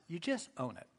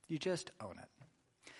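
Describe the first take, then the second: First: Said in the usual way. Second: Softer and slower, letting it sink in; soft, slow repeat. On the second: Shown as a demonstration. Preacher repeating the point to the congregation, soft and slow. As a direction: drop the voice and linger on it.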